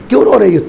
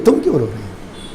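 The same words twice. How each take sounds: First: Said in the usual way. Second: A hushed, gentle question to someone weeping; soft tender repeat. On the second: Acted. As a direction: ask again much softer and lower. Husband asks crying wife why. (بہت دھیمی اور نرم آواز میں دوبارہ پوچھنا)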